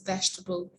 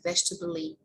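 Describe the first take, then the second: First: It ends without an extra vowel sound. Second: It ends with an extra vowel sound. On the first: The speaker calls it right. "That E is silent" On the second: The speaker calls it wrong. "It's not like vegetable-y"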